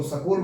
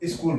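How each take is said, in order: First: स्कूल said as sa-kool, a short a between s and k; school with an extra vowel. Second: स्कूल said as is-kool, with a short i before the s; school with a leading i. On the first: Teacher listing common ways people say स्कूल, here sa-kool. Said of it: "ऐसा बोला जाता है". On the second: Teacher showing that some people say स्कूल as is-kool. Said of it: "कई इसको". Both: Shown as a demonstration.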